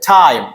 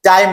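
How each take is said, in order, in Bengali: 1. T বলা হয় জোরালো বাতাসের ফুঁ দিয়ে। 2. T বলা হয় বাতাসের ফুঁ ছাড়া। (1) "ঠ এর মতো" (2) "নট ট"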